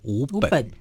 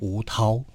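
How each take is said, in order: First: The second syllable is pronounced ben. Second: The second syllable is pronounced tao. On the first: The speaker calls it wrong. "不要把它成读作吴本" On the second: The speaker calls it right. "要读作涛了"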